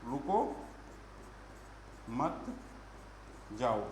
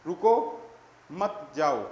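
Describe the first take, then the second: First: रुको, मत and जाओ each alone with long gaps; lower, spaced out as if writing each word; long pauses after रुको and after मत; word-by-word dictation. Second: रुको rising, a clear pause, then मत जाओ together; pause after रुको. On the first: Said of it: "लिख ही रहा हूँ मैं इसको". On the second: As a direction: break after रुको, run मत जाओ as one phrase. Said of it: "वाणी को अल्पविराम किस तरीके से". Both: Shown as a demonstration.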